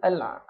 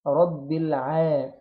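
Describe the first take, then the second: First: الع- cut short on a choked ayn; wrongly stopped ayn. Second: رب الع- with a long, thin "aa" after the ayn; slow "rabbil-aa", unbroken and light; light flowing ayn. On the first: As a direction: halt the sound at the ayn in الع-. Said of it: "يوقفها في النطق". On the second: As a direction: let the ayn of الع- flow on, slowly drawn out. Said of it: "محدش يفخم العين". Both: Shown as a demonstration.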